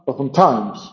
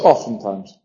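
First: The stress is on the last syllable. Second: The stress is on the first syllable. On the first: "Si tú quieres decir times" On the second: "es drújula"

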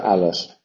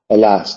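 First: The stress is on the first syllable. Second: The stress is on the second syllable. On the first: The speaker calls it wrong. "Nunca alas" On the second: The speaker calls it right. "Yambo, el as, sí. El as, siempre se pronuncia el as"

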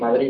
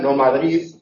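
First: The final d is dropped completely. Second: The final d is said like th. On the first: "Tampoco la desaparición" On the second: "pero no la interdental"

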